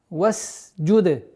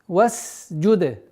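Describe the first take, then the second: No difference in how they are said.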